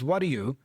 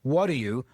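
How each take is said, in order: First: The words run together in connected speech. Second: The words run together in connected speech.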